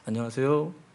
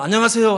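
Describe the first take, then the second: First: It is said quietly with little energy. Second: It is said loudly with lots of energy.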